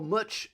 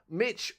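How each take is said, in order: First: The vowel is said in a New Zealand accent. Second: The vowel is said in a plain accent.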